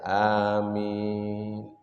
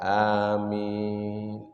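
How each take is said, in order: First: The vowel in the word is drawn out long. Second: The same.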